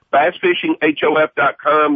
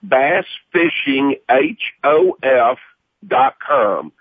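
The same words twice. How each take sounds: First: Said in the usual way. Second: "bass fishing H O F" slowly, each letter spaced apart; slow spelled-out URL. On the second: Shown as a demonstration.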